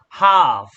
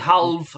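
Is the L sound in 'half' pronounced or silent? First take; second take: silent; pronounced. First: The L sound is silent. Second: The L sound is pronounced. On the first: The speaker calls it right. "the L is silent" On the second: The speaker calls it wrong. "We don't say half, no"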